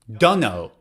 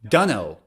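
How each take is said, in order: First: The words are reduced to 'dunno'. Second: The words are reduced to 'dunno'.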